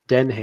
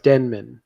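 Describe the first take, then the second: First: The name ends with a 'ham' sound. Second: The name ends with a 'man' sound. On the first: The speaker calls it wrong. "I kept saying" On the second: The speaker calls it right. "It's Denman"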